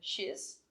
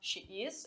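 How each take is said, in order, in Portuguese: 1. Dito como uma sílaba contraída. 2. Dito como duas palavras separadas e completas. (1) "eu vou dizer she's" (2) "eu não vou falar she is"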